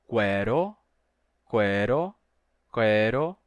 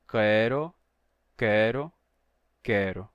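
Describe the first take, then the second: The two takes are said the same way.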